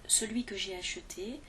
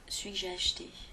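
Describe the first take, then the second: First: The word celui is pronounced in full. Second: The word celui is clipped and shortened. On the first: "au lieu de dire" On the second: "les gens vont dire"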